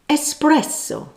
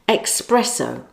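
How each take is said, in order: First: It begins with an 'es' sound, no k. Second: It begins with an 'ex' sound, like express. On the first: The speaker calls it right. "The correct word is espresso" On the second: The speaker calls it wrong. "the next incorrect pronunciation that irritates so many people"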